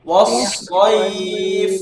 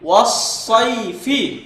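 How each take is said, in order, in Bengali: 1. ব্যঞ্জনে থেমে যায়, স্বর টেনে পড়া হয়। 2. শেষে স্বরসহ পড়া হয়। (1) "এটা আমরা পড়বো কিভাবে? এইভাবে" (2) "এখন দেখুন এখানে ওয়াসাইফি"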